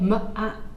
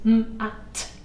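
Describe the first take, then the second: First: The m is followed by an added uh vowel. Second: The m is a pure sound with no added vowel. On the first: The sounds blend into the word matter. The speaker calls it wrong. "if you put the uh on the end" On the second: The sounds blend into the word mat. The speaker calls it right. "as pure sounds without an intrusive uh at the end"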